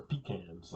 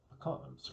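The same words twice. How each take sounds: First: Pecans said PEE-canz; pecans as "PEE-canz", rhyming with cans; PEE-canz pronunciation. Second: Pecans said puh-KAHNZ; pecans as "puh-KAHNZ", rhyming with cons; puh-KAHNZ pronunciation. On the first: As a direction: say pecans with a long EE first, then "canz". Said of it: "like some people say". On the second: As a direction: say pecans with an AH, stress on the second syllable. Pronunciation set against another. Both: Shown as a demonstration.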